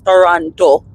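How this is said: It is said the way Jamaicans say it. "is how we Jamaicans pronounce it"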